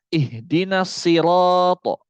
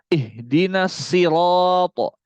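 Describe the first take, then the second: Both takes have the same delivery.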